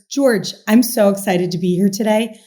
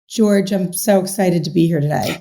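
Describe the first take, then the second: First: The voice sounds lively and enthusiastic. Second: The voice sounds flat and unenthusiastic. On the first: The speaker genuinely means it. The speaker calls it right. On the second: The speaker does not really mean it. The speaker calls it wrong.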